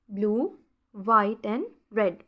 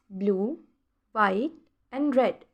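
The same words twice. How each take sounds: The two takes are said the same way.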